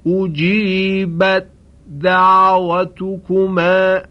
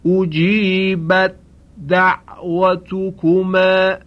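No difference in how they are said.

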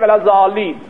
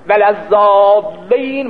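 First: The consonant is single and short. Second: The consonant is doubled and held longer. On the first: The speaker calls it wrong. "او نمیتونه میگه ولزالین، ها اینجوری" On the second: The speaker calls it right. "ولزالین مشدد"

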